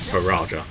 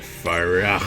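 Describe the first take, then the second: First: It is said with a plain English J sound. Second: It is said with a Mexican Spanish twang.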